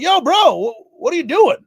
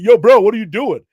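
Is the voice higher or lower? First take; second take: higher; lower. First: It is said in a higher voice. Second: It is said in a lower voice.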